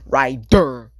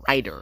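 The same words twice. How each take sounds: First: The D is pronounced with heavy emphasis. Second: The D is soft and sounds like a T. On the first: The speaker calls it right. "You gotta put heavy emphasis on the D" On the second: The speaker calls it wrong. "It sounds like I'm saying writer"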